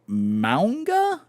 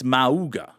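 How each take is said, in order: First: An n sound comes before the g. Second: No n sound comes before the g. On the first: "I thought there was an N in there somewhere in the pronunciation" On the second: "It's Mauga"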